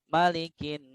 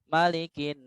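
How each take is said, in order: The two takes are said the same way.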